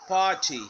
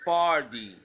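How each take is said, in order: First: The t is a strong, crisp t. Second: The t sounds like a soft d. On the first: "British party" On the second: "American party"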